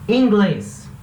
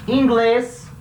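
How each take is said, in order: Both takes have the same delivery.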